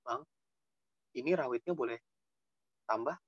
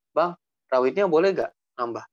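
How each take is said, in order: First: Soft, meek asking; mild-mannered customer request; polite request. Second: Plain-voiced, firmer asking; pushy request. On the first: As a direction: ask gently, keeping the voice down. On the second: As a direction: ask outright at full voice. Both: Shown as a demonstration. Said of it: "yang begitunya itu maksudnya".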